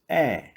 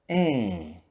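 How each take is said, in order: First: The vowel is said with an open mouth. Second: The vowel is said through the nose. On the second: "Agora os sons nasais"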